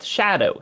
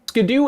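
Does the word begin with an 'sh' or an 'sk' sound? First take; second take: sh; sk. First: The word begins with an sh sound. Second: The word begins with an sk sound. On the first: The speaker calls it right. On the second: The speaker calls it wrong.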